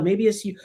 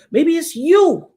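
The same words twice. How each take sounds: First: Said in the usual way. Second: "you" drawn out, high and loud; stress on "you". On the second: Real, not acted. Turning the warning on the listener, "you" stressed high and loud. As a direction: land hard and high on a long "you". Repeats the accusation with force.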